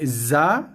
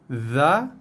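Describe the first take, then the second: First: The first consonant is a plain z sound. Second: The first consonant is not a plain z. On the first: The speaker calls it wrong. "membunyikan huruf ini dengan bunyi Z A" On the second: The speaker calls it right. "kita bunyikan dia sebagai bunyi za"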